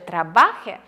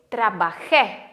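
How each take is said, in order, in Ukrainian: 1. Наголос на середньому складі. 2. Наголос на останньому складі. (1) "якщо ви його не поставите на кінець і скажете «трабахе»" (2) "Наголос має бути на кінець"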